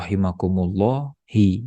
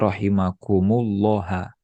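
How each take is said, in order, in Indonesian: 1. Kata ini berakhir dengan vokal i. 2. Kata ini berakhir dengan vokal a. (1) "Tidak boleh" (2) "Tidak boleh"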